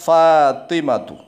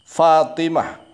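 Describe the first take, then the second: First: The word ends with a t sound and vowel. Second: The word ends with a soft h sound. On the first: The reading continues without stopping. "akhirnya lafadz di situ adalah huruf ta" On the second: The reading stops at this word. "kalau dibaca waqfun, dibaca berhenti, maka berubah jadi hak"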